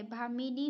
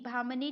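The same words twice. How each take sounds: First: भामिनी in three beats, bhaa-mi-nee; correct form. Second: भामनी in two beats, bhaam-nee; no vowel after the m of भामनी; wrong form. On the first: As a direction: sound a short i after m in भामिनी. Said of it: "भामिनी होता है". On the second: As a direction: drop the i between m and n in भामनी. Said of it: "भामनी नहीं होता है". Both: Shown as a demonstration.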